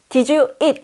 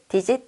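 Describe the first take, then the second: First: The words are spoken as separate words. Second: The words blend into one short word. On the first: "did 영어로 이것을 did you eat?" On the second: "digit 하면 그 외국인들이 다 알아들어요"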